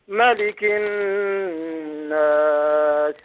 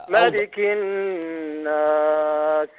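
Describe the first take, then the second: The two takes are said the same way.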